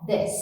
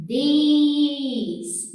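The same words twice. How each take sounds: First: "This" with a short, closed, almost e vowel. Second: "This" with a long open ee vowel; the wrong, stretched "This". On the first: Teacher showing the right short vowel in "this". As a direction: clip the vowel in "This". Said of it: "É um I fechado, curtinho". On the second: Teacher showing the wrong vowel in "this". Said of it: "não é um I assim". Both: Shown as a demonstration.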